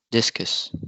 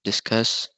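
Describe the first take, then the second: First: "discus" said DIS-cus; stress on first syllable. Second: "discuss" said dis-CUSS; stress on second syllable. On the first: Student presenting stress example, "discus" stressed on DIS. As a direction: put the weight on the start of "discus". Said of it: "word stress wrongly". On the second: Student showing stress shift, "discuss" stressed on CUSS. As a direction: push the weight onto the end of "discuss". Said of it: "If you pronounce it". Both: Shown as a demonstration.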